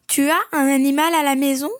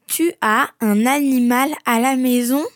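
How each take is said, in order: First: It is said at normal speed. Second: It is said more slowly.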